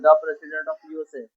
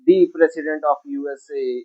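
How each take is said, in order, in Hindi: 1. 'the' छोटा और बिना जोर का बोला जाता है, 'thuh' की तरह। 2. 'the' लंबा और जोर देकर बोला जाता है, 'thee' की तरह। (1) "जनरल वे में बोलना होगा" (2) "खास जोर देके ही बोला जाता है"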